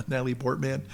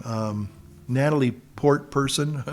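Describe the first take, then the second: First: Said in the usual way. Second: Port person with person stressed as a joke; joking swap to Port person. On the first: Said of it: "Can't say Portman". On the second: Shown as a demonstration. Joking he won't say the name, stresses "Port person". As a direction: lean on "Port person" like a mock politically correct fix. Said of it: "Can't say Portman 'cause that's sexist".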